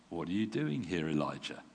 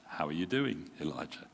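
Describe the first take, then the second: First: Said in the usual way. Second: Gentle. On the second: Shown as a demonstration. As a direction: ask it like a friend checking in. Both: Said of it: "Or perhaps".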